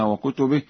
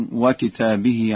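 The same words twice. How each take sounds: First: Said in the usual way. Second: وكتابه said wa-kitabihi, with long aa; singular reading. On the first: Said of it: "وقوله تعالى". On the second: Shown as a demonstration. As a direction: stretch the aa in وكتابه, kitab not kutub. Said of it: "وكتابه على الإفراد". (قراءة «وكتابه» بالإفراد)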